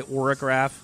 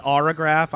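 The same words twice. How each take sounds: First: "orograph" opening on a rounded OR; musician's own pronunciation. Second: "autograph" said with an open AH as the first vowel; own usual pronunciation. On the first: Host showing musician's way of saying the name, "orograph" said OR-uh-graph. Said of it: "I know you say orograph". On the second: Host apologizing to musician for his pronunciation, "autograph" said AH-ruh-graph. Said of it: "I always pronounce it autograph". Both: Shown as a demonstration.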